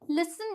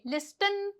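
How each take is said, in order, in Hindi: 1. बीच में 't' की ध्वनि साइलेंट है। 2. बीच में 't' की ध्वनि बोली जाती है। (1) "जैसे कि लिसन बोलेंगे" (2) "लिस्टन तो नहीं बोलते ना"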